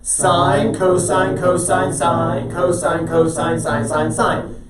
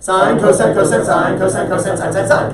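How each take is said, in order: First: The words are recited slowly. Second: The words are recited very quickly.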